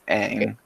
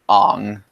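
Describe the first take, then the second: First: The vowel is an open 'a' sound. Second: The vowel is a rounded 'o' sound. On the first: This is how the original show says it. The speaker calls it right. "in the show it clearly says Aang" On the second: This is how the live action movie says it. The speaker calls it wrong. "They literally pronounce Aang's name Ong"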